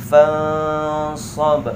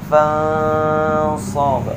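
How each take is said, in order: The two takes are said the same way.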